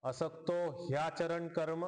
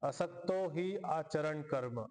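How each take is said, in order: First: The words are joined together into one flow. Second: The words are said separately, with breaks. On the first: "असं म्हणूयात संधी सोबत" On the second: "वेगळं वेगळं"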